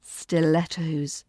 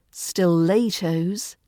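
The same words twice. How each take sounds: First: "Stilettos" slowly, short E: stil-ET-ohz; falling, slow "Stilettos" with LET in the middle; correct pronunciation. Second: "stilettos" said slowly as "stil-AY-tohz"; wrong middle vowel, "stilettos" with LAY, rising; mispronounced stilettos. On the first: Teacher correcting the shoe word for learners, correct short vowel. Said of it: "not stilettos". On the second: Teacher showing learners what to avoid, wrong vowel. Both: Shown as a demonstration.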